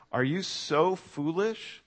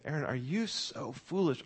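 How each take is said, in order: First: Slow, drawn-out rebuke rising on "so"; stern rebuke. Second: Lightly voiced parent scolding a child, "you" pressed; a hint of a disappointed parent. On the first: Retold or imitated. Paul rebuking the Galatians, slow stern question. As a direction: stretch "Are you so foolish?" slowly with a rise on "so". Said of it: "Do you hear the tone here?". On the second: Parents scolding their son Aaron, mild mock scolding. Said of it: "if my parents were coming to me and saying".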